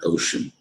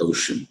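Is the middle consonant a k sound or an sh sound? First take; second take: sh sound; sh sound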